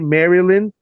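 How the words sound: Every syllable of the word is pronounced fully.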